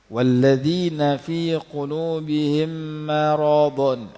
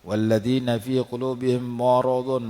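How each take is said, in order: First: The m sound is light, not heavy. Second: The m sound is heavy and thick. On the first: The speaker calls it right. "itu betul" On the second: The speaker calls it wrong. "tebal siap-siap tu agak kurang bagus"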